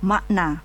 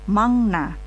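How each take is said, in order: First: The first syllable ends with a k sound. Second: The first syllable ends with an ng sound. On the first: "Orang Indonesia akan melafalkan suku kata tersebut dengan lafal makna" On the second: "beberapa orang Korea akan melafalkan ... dengan mangna"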